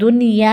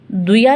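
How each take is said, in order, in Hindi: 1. y से पहले n की आवाज़ बरकरार रहती है। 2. n की आवाज़ y में मिल जाती है। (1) "बल्कि दुनिया ही पढ़ेंगे" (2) "हम इसे दुया नहीं पढ़ेंगे"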